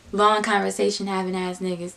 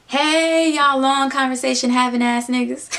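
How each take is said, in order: First: Playing dumb. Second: Teasing call-out. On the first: Her echoing the friend's words, acting clueless. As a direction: repeat the phrase as if baffled. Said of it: "Like, I'm acting stupid". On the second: Retold or imitated. Best friend greeting the pair in the car, loud teasing call-out. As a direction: loudly hail them to needle them.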